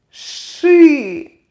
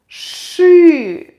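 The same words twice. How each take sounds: Both takes have the same delivery.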